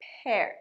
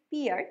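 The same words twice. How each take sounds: First: পেয়ার said as "pair", rhyming with air; correct pronunciation. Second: পিয়ার said with an "ee" vowel, "pee-ar"; common mispronunciation. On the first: Teacher correcting a common mistake, careful pronunciation of পেয়ার. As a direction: say পেয়ার with an open "eh" vowel. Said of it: "কিন্তু উচ্চারণটা". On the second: Teacher showing what many people say, mispronounced পিয়ার. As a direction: say পিয়ার mistakenly, like "peer". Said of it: "common mistake, আমরা অনেকেই বলি". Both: Shown as a demonstration.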